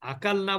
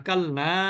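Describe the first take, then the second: First: The final vowel is short and clipped. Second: The final vowel is drawn out long. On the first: The speaker calls it wrong. "আকাল না বললে তো হলো না" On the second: The speaker calls it right. "মাদ হবে তো"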